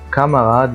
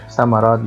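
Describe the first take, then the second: First: The word starts with a k sound. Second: The word starts with an s sound. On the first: The speaker calls it right. "باقول كاماراد" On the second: The speaker calls it wrong. "فليه ما قُلتهاش سمراد؟"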